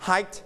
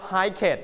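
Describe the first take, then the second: First: "hiked" as one syllable, HYKT; softened final t. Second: "hiket" as two syllables, HIKE-ket; wrong extra syllable. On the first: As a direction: end "hiked" on a light t. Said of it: "and volume down". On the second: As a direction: say "hiket" with a full -et ending. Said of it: "we don't pronounce". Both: Shown as a demonstration.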